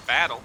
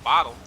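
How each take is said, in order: First: "battle" said with a short a like bat; "battle", the slip, with a flat a; mispronounced bottle. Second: "bottle" said with an open o like bot; "bottle", the intended word, with an ah vowel; correct pronunciation. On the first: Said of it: "I just said battle". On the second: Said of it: "instead of bottle". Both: Shown as a demonstration.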